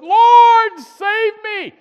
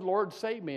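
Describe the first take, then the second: First: High, loud cry of a sinking man; desperate cry. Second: Softer, plain retelling of the plea; just three plain words to God; simple quiet plea. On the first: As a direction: cry out as the waves take you. Retold Peter sinking in water. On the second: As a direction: say it simply, almost under your breath. Retold Peter plainly, simple words. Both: Retold or imitated.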